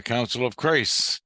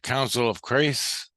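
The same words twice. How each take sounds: First: Said in the usual way. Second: "Council of Christ" slowed, rising at the end as a question; puzzled repeat of "Council of Christ", lifting at the end; questioning echo. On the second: Retold or imitated.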